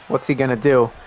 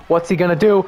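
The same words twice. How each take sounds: First: Said in the usual way. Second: Rising excitement. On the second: Real, not acted. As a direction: build the anticipation up. Repeated question building suspense.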